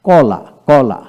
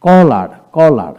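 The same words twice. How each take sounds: First: কলা said with no r sound, open ending; British pronunciation. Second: কলার said slowly and louder with a clear final r; American pronunciation. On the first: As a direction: end কলা on the vowel, no r. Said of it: "British". (British উচ্চারণে র ছাড়া কলা) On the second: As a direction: stretch কলার and sound the r. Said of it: "আমেরিকানে". (American উচ্চারণে ধীরে, জোরে, র সহ কলার) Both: Shown as a demonstration.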